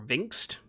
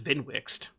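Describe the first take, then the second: First: The W sound is left out. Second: The W sound is clearly pronounced. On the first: "if the W is silent" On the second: "I'm assuming it's Vinwixt"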